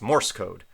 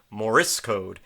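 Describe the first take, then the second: First: No extra vowel sound is added in the word. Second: An extra vowel sound is added in the word. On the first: The speaker calls it right. "but it's Morse code" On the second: The speaker calls it wrong. "I kept putting an extra uh, vowel in there"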